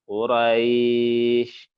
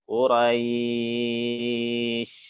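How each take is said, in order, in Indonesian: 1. Vokal sebelum akhir ditahan sebentar. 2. Vokal sebelum akhir ditahan sedang.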